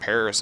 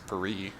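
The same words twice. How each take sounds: First: It is said with an American English pronunciation. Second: It is said with a French pronunciation. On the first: "I know Paris isn't Paris in French" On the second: "It's Paris"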